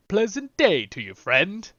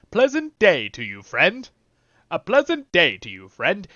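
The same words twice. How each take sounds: First: Lightly mimicked hobbit greeting; a hint of a cheery hobbit; game hobbit line. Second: Louder, cheerier hobbit greeting; repeated hobbit line. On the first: Echoing the game's hobbit to the viewers, lightly hobbitish. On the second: Retold or imitated. Repeating the hobbit's line with louder hobbit cheer. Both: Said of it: "Let's hear that one more time".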